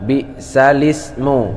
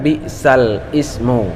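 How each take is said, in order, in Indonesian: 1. Huruf l langsung menyambung ke ismu tanpa jeda. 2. Ismu diawali terpisah dengan hamzahnya sendiri. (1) "Sehingga dibaca bi'salismu"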